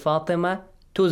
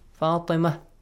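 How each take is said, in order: First: The name ends with a t sound and vowel. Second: The name ends with a soft h sound. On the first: "We pronounce the ta" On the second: "when you say only Fatima"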